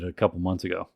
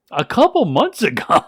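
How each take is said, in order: First: Said in the usual way. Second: Loud, high-pitched mock disbelief; acted-out stunned outburst; incredulous echo. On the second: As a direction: echo it back astounded, louder and higher. Journalist echoes in disbelief.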